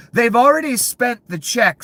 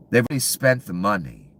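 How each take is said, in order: First: They've already spent the check yelled high and loud, already punched; raging about spent money, much higher and louder; furious shout. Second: Said in the usual way. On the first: Real, not acted. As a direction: peak of the rant, hammer already. Ranting about greedy officials.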